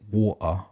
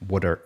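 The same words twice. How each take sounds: First: A Cockney British accent, with the T dropped. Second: An American accent, with the T sounding like D. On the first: "I used to say it water. That's how I used to naturally say it" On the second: "See, there's still a D in there"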